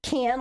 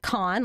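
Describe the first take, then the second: First: It sounds like can, with no final s. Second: It sounds like con, with an open vowel. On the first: "like a can of peanuts" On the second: "like con, like con artist"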